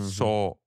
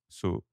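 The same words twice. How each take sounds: First: The O vowel is said with an accent. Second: The O vowel is said without an accent. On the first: "I put an accent on the O" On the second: "instead of so"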